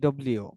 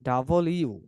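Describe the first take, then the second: First: The name is clipped into two quick syllables. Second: The name is said fully as double you. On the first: The speaker calls it wrong. "আমরা বলি ডব্লিউ" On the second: The speaker calls it right. "আজকে থেকে আমরা বলবো ডাবল ইউ"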